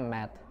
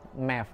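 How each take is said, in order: First: It is said with an American pronunciation. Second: It is said with a Canadian pronunciation, like 'mef'. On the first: "di U S kan bilangnya math" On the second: "Di di Kanada mereka sebutnya math, pakai math kayak M E F"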